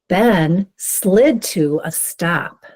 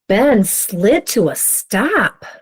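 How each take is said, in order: First: It is read in a plain, neutral way. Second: It is read with a surprised tone.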